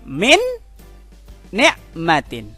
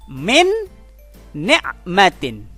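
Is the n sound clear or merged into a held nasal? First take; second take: clear; clear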